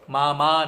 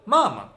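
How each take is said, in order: First: The stress is on the second syllable. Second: The stress is on the first syllable. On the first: The speaker calls it wrong. "मामा नहीं" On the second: The speaker calls it right. "पहले वाले पे स्ट्रेस है तो ये मामा हो गया"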